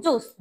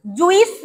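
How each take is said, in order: First: "জুস" softly, in one syllable; corrected pronunciation. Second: "জুইস" in two syllables, ju-is; wrong pronunciation. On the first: Teacher correcting pupils, "জুস" softly with one long oo. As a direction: say "জুস" as joos, no i. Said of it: "it's জুস". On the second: Teacher showing pupils the mistake, "জুইস" as ju-is. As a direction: say "জুইস" with an added i vowel. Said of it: "জুইস না". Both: Shown as a demonstration.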